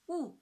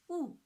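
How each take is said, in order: First: The pitch falls sharply from high to low. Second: The same.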